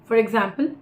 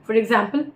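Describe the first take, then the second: Both takes have the same delivery.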